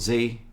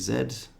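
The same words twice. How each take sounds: First: The letter is said as zee. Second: The letter is said as zed.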